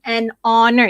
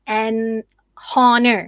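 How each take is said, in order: First: The h sound at the start is silent. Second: The h sound at the start is pronounced. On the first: The speaker calls it right. "you don't make the sound uh, of the H" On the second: The speaker calls it wrong. "You don't say"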